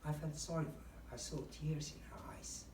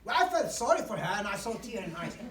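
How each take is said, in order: First: It is said in a sad voice. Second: It is said without sadness.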